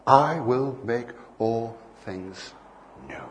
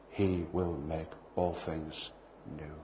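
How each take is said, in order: First: Each word drawn out and weighty; slow proclamation. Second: Softer, every word stretched out; soft slow promise. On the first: Preacher proclaiming the promise to the congregation, slow and weighty. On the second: God reassuring David about the planet, soft and slow. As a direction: say it gently, slowly, as a promise. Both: Acted.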